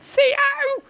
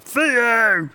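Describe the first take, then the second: First: A thin, reedy voice rising like a question. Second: A full, confident voice from the throat. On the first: Dismay at a miss. "a thin, reedy Theo that comes from the front of the palette and with a question mark" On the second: Celebrating a goal. "one with confidence from the back of their throat"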